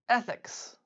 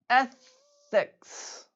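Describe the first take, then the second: First: The word is said at normal conversational speed. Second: The word is said slowly and drawn out. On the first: "then at normal speed" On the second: "once slowly"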